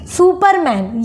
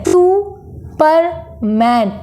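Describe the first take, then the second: First: Said in the usual way. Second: Superman very slowly, pausing after each syllable; three separate beats in Superman, two clear pauses; split into three syllables. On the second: Shown as a demonstration. Teacher showing two pauses, Superman broken in three. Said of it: "यहाँ पर दो बार हम pause ले रहे हैं".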